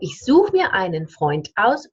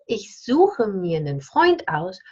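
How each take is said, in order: First: The final e of suche is dropped. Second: Einen is reduced to a short nen. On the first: "you drop the E" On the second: "if I want to have pronounced the E, I need to reduce the einen zu nen"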